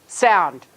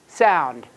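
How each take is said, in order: Both takes have the same delivery.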